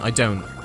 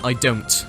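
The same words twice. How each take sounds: First: The T in don't is a glottal stop. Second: The T in don't is clearly released. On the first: "I'm saying I don't. Because it and using a guttural stop" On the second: "I'm not saying"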